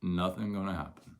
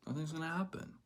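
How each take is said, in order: First: Said in the usual way. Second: Nothing's gonna happen, lifted higher and softer with a rise on happen. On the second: Real, not acted. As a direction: float it up gently.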